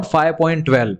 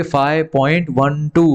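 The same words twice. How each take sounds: First: Decimals read as one number, "twelve"; wrong way to read. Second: Digits after the point read one by one, "one two"; correct reading. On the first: Teacher showing the mistake to avoid, read as twelve. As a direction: say "five point twelve" as a number kids wrongly say. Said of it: "ऐसा नहीं बोलेंगे". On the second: Teacher modelling the right reading for students, slow, digit by digit. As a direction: say "five point one two" slowly, each digit on its own. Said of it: "तो इसको क्या बोलेंगे?". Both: Shown as a demonstration.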